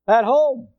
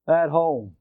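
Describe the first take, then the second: First: HOME said higher with more force; emphatic repeat. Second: Said in the usual way. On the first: Real, not acted. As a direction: lift "home" to drive the answer in. Repeats own answer with emphasis.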